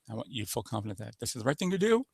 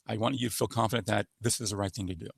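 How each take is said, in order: First: The pitch rises at the end. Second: The pitch stays nearly flat throughout. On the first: It is a question. "It goes up at the end" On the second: It is a statement. "Statement is almost monotone"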